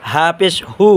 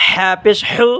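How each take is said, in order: First: হু from the start of the throat; deep-throat ha. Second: হু from the middle of the throat. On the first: Teacher contrasting letters for viewers, open deep-throat হু. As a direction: let the h of হু come from the throat's base. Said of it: "গলা শুরু হতে". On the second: Teacher showing viewers the letter, mid-throat হু. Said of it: "গলার মাঝখান থেকে উচ্চারণ হবে". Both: Shown as a demonstration.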